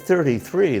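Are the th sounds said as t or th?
th. Both numbers start with a soft th sound. "Instead of thirty-three"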